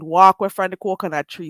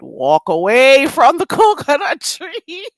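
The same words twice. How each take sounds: First: Firm Jamaican Patois, low and even. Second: Slow, loud, rising pitch, breaking into laughter; drawn-out first take. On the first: Shown as a demonstration. Streamer warning off accent critics, firm Jamaican Patois. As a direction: warn them off in Jamaican Patois. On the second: Real, not acted. Streamer warning off accent critics, drawn-out and laughing. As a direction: stretch it out, climbing higher into a laugh. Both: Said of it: "should I say it in a, another way".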